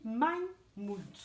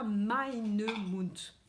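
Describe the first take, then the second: First: "mein Mund" said slowly, no "-e" on "mein"; correct form. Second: "meine Mund" said with the extra "-e" ending as the mistake; wrong form. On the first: Teacher giving kids the right German, "mein Mund", slowly. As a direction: say "mein Mund", clean and slow. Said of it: "On dit mein Mund". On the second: Teacher showing kids the wrong German form, "meine Mund". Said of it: "on ne dit pas meine Mund". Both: Shown as a demonstration.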